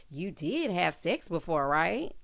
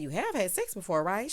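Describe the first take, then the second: First: Slow, with "did" drawn out; stress on "did". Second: Said in the usual way. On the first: Retold or imitated. Host mocking his question to her, "did" stressed. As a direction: lean hard on "did", slowly.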